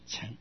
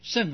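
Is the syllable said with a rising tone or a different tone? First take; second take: rising; different. First: The syllable is said with a rising tone. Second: The syllable is said without a rising tone. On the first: It is used as a verb. "当动词念成成，二声成" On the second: It is used as a noun meaning a vehicle. "如果当成名词的话呢，要念成这个甚"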